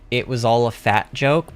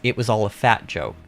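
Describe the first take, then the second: First: The stress falls on the word joke. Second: The stress falls on the word fat.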